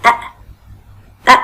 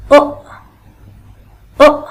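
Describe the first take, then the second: First: أ said as a short open "a"; أ with fatha. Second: أ said as a short rounded "o/u"; أ with damma. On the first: Teacher showing children the fatha sound, أ as short "a". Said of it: "الفتحة اللي فوق راسه دي بتغير حرف صوت". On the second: Teacher showing children the damma sound, أ as short "o". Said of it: "يبقى الألف فوق راسه ضمة". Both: Shown as a demonstration.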